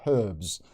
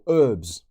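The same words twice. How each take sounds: First: It is said with a non-American accent. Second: It is said with an American accent.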